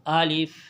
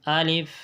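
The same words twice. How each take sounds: No difference in how they are said.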